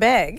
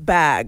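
First: The word has a strong local vowel. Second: The word has a standard vowel. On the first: The speaker calls it wrong. "they started just tearing apart the way I spoke" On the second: The speaker calls it right. "However regular people say it"

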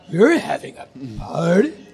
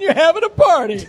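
First: It is said as a surprised, rising question. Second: It is said as a flat, matter-of-fact statement.

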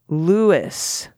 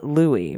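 First: The name ends with an audible s sound. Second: The name ends with an ee sound. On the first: The speaker calls it right. "Louis rhymes with poopis" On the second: The speaker calls it wrong. "not Louis rhymes with poopy"

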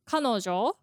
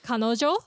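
First: The pitch starts high and falls after. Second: The pitch starts low and rises after. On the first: This is the standard dictionary pronunciation. "the dictionary pronunciation is kanojo" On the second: This is the trendy way young people say it. "the hipster way of saying it is kanojo"

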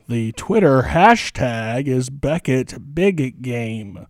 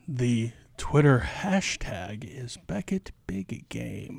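First: It is said louder. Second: It is said fairly quietly.

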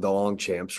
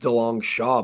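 First: The name ends with a 'champs' sound. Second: The name ends with a 'shaw' sound. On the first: This is how other people commonly say the name. The speaker calls it wrong. "I'm not going to correct anybody that calls me the DeLongchamps" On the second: This is how the name is actually pronounced. The speaker calls it right. "It's actually pronounced DeLong Shaw"

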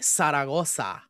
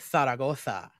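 First: It is said in a Mexican Spanish accent. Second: It is said in a Spain Spanish accent. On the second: "if you want to go from where the origins are, which are España"

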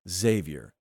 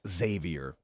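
First: The name starts with a soft Z sound. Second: The name starts with a hard KS sound. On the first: The speaker calls it right. "it's just Xavier" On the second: The speaker calls it wrong. "I go really, really hard on the X"

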